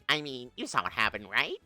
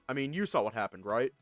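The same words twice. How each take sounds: First: It is said in a put-on character voice. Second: It is said in the speaker's natural voice.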